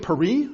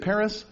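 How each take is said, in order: First: It is pronounced the French way. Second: It is pronounced the English way. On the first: "But I don't say Paris" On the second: "I say Paris"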